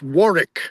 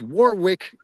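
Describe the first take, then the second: First: The middle w is silent. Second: The middle w is sounded, as spelled. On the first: The speaker calls it right. "Warwick is how that's pronounced" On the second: The speaker calls it wrong. "you might think is Warwick, it's not"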